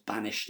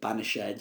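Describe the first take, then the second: First: The final -ed is not sounded as a syllable. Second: The final -ed is sounded as a separate syllable. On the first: This is the everyday modern form of the word. "it's the same as banished" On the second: This is the older form of the word. "if you ever hear banished"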